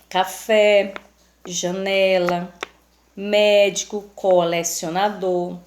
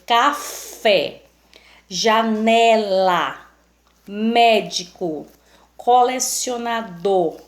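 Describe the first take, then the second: First: Café, janela, médico, colecionador evenly, with less punch on the stressed syllable; measured, more even word-by-word reading of café, janela, médico, colecionador; unstressed syllables shown. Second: Slow examples, strong stress on café, janela, médico, colecionador's tonic syllables; stressed syllables punched. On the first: Teacher giving the class examples of unstressed syllables, café, janela, médico, colecionador said more evenly. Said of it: "pronunciada com a menor intensidade".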